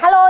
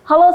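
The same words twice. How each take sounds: First: The voice is thin and shrill. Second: The voice is round and full.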